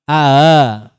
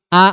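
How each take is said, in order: First: The glottal stop is softened, close to h. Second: The glottal stop is pronounced fully and firmly. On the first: "Mendekati h" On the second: "Kalau tahqiq berarti"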